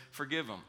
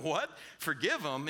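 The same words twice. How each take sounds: First: Simple falling answer; matter-of-fact Jesus. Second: Incredulous disciples. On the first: Jesus answering the disciples' objection, matter-of-fact. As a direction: state it as a settled, unbothered command. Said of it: "And Jesus says". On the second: Disciples reacting to Jesus's command, mock incredulous. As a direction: balk at the idea, questioning. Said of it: "the disciples are sitting there going". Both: Retold or imitated.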